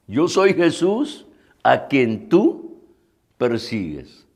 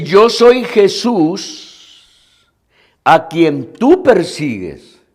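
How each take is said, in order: First: Slow, hushed restating of the verse; quiet, measured scripture quote with pauses; softer repeat. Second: Lightly voiced, drawn-out divine declaration; slow scriptural pronouncement with long pauses; voice of Jesus. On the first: Retold or imitated. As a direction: let it sink in softly, dropping low at the end. Preacher repeats the verse reflectively. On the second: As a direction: proclaim it slowly, stretching the words as the Lord. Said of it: "el Señor le dice".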